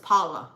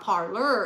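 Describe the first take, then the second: First: The R sounds are dropped. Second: The R sounds are clearly pronounced. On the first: "when we talk pidgin, we don't say the R's" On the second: "It's not parlor"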